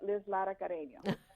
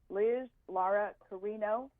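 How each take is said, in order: First: It is said in the speaker's native accent. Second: It is said in a plain, anglicized accent.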